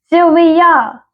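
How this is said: The name is called insistently.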